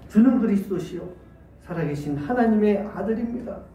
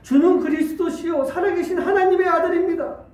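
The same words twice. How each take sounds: First: It is said at a quieter volume. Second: It is said at a louder volume.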